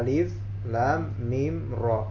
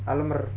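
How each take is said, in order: First: Each letter is said by its separate name. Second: The letters are blended into one word. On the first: The speaker calls it right. "tapi bacanya alif lam mim ro" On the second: The speaker calls it wrong. "Bukan dibaca alam. Atau alam ro, alamr. Enggak"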